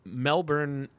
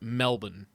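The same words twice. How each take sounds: First: The R sound is pronounced. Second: The R sound is dropped.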